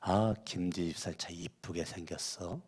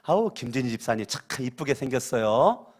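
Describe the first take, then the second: First: It is said on a low, flat pitch. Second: It is said on a high, bright pitch.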